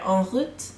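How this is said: It is said with a French pronunciation. "En route is what it is meant to be in French"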